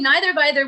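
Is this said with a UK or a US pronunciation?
UK. It is said with a British-style pronunciation. "the more U K version"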